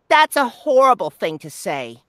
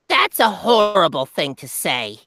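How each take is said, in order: First: The character voice is only mildly goblin-like. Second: The character voice is strongly goblin-like. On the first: The speaker calls it wrong. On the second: The speaker calls it right.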